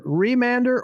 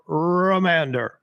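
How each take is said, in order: First: Remander with a long ee in the first syllable, "REE-mander"; pronounced REE-mander. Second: Remander with a drawn-out rolled R, "rruh-MANDER". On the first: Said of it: "am I saying it properly". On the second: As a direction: roll the R at the start of Remander. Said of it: "Should I roll my R's". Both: Shown as a demonstration.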